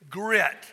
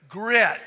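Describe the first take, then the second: First: The word is said in a plain voice. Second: The word is said with force and energy. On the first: "Say that word with me" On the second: "Say it with some grit"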